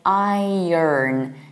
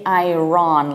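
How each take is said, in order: First: The ending is reduced, not like Ron. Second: The ending sounds like the name Ron. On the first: The speaker calls it right. "We say iron" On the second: The speaker calls it wrong. "we don't say Iron, Ron like the name of the guy"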